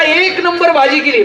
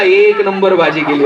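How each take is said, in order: First: Higher, drawn-out husbandly compliment; imitating an eager compliment, slowly; mock praise. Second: Low, drawn-out compliment through a grimace; imitating a husband's reluctant compliment; grimacing forced praise. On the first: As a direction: stretch out the praise, pitched up. Husband's praise replayed for the joke. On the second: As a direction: praise it with a twisted mouth, slowly. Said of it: "तोंड वेडं वाकडं करत बायकोला म्हणला".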